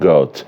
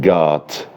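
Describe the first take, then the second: First: The vowel is a rounded British o sound. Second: The vowel is an open American ah sound.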